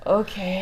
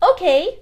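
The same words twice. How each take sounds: First: It sounds reluctant and unwilling. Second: It sounds enthusiastic and eager.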